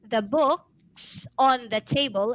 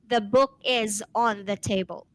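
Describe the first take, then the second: First: 'Book is' is shortened to 'book's'. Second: 'Book is' is said as two full words. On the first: The speaker calls it right. "should answer" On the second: The speaker calls it wrong. "and not"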